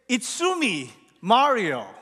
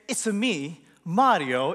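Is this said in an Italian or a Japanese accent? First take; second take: Japanese; Italian. First: It is said in a Japanese accent. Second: It is said in an Italian accent. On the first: It is a Japanese word. The speaker calls it right. "A Japanese word that sounds like, it's-a-me" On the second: It is an Italian-style catchphrase. The speaker calls it wrong. "we think he's saying, it's a me, Mario, in this Italian accent"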